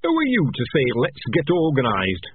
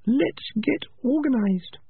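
First: A sharp, mocking jab at her words; sharp retort. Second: Put-on high young rat voice, drawn out slowly; Peaches, slow and high. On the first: Clan leader mocking Peaches, sharp and scornful. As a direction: throw her phrase back at her, sharply. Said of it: "he said sharply". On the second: Peaches urging the clan to get organized, high and slow. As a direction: lay out the plan calmly, in a high voice. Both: A narrator's reading.

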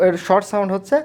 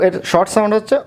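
Both takes have the same delivery.

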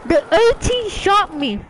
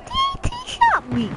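First: Said in the usual way. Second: Very high, squeaky silly voice. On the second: Pretend. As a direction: squeak it out like a cartoon. Same words repeated in silly voice.

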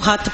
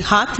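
First: ਹੱਥ with a short vowel, "hatth"; correct ਹੱਥ. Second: ਹੱਥ with a long open vowel, like "haath"; mispronounced ਹੱਥ. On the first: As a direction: keep the vowel in ਹੱਥ short before the consonant. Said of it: "ਉਹਨੂੰ ਹੱਥ ਪੜਨਾ ਹੈ". (ਹੱਥ ਨੂੰ ਛੋਟੇ ਸੁਰ ਨਾਲ "ਹੱਥ" ਬੋਲੋ) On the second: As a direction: stretch the vowel in ਹੱਥ to "haa". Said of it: "ਹੱਥ ਨਹੀਂ ਪੜਨਾ". (ਹੱਥ ਨੂੰ ਲੰਮੇ ਕੰਨੇ ਨਾਲ "ਹਾਥ" ਬੋਲੋ) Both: Shown as a demonstration.

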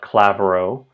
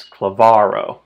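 First: "clavero" as CLA-ve-ro, first syllable stressed; wrong first-syllable stress. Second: "klavaro" as kla-VA-ro, slow, VA loud; penultimate stress. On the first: Teacher showing learners a mistake, stress on CLA. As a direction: punch CLA in "clavero", rising at the end. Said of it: "It's not clavero". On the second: Teacher correcting the mistaken stress, VA stressed. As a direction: lean hard on VA in "klavaro", falling after. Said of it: "it's klavaro". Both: Shown as a demonstration.

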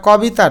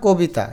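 First: কবিতা with an open 'aw', "kaw-bita"; wrong pronunciation. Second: কবিতা with a closed 'o', "ko-bita"; correct pronunciation. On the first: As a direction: say কবিতা as written. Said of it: "এটা কবিতা না". (কবিতা, খোলা অ দিয়ে) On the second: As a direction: round the first vowel of কবিতা to o. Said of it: "এটা বলি আমরা কবিতা". (কবিতা, কোবিতা উচ্চারণে) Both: Shown as a demonstration.

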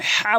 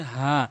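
First: "হা" pressed hard in the throat; wrong h. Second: "হা" light, from the start of the throat; small h. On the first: Teacher warning learners off a forced "হা". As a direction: say "হা" with strong throat friction. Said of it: "কখনো হা বলবেন না". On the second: Teacher showing learners the small light "হা". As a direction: breathe out an easy, unforced "হা". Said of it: "হলকের শুরু থেকে উচ্চারণ করবেন". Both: Shown as a demonstration.

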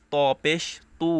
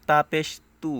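First: ত পেশ তু with a thick, heavy তু. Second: তা পেশ তু said light and simple. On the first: Teacher contrasting heavy ত with simple তা, thick and full. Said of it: "এটা হচ্ছে মোটা হবে". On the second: Teacher contrasting simple তা with heavy ত, light and plain. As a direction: keep তা পেশ তু light, no heaviness. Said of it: "তা পেশ তু simple". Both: Shown as a demonstration.

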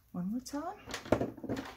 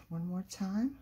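First: Higher, very slow, stretched singsong; singsong drawl. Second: Said in the usual way. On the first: Real, not acted. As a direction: stretch it out playfully. Drawn-out singsong repetition.

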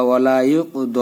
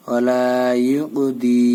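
First: ওয়ালা ইউক দ ending on a long open "do"; khara zabar ending. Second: ওয়ালা ইউকদি ending on a long "dee"; long "laa", then ইউকদি with an i vowel. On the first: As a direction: say the final দ with a long a/o vowel, never "dee". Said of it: "এখানে খাড়া জবর দিয়ে পড়লেই ভালো হবে". (ইউক দ, খাড়া জবরে টেনে) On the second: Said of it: "দ বললেই ভালো হবে". (ইউকদি, শেষে "দি" টেনে) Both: Shown as a demonstration.

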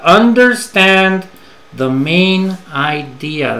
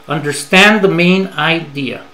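First: Each word spaced out slowly; teacher's slow careful model; slow and deliberate. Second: Said in the usual way. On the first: Shown as a demonstration. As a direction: spell the idea out for learners.

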